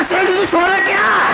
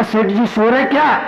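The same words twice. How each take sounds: First: High, called-out question. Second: Said in the usual way. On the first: Retold or imitated. Monk calling to the dozing merchant, raised voice. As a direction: call out to wake him.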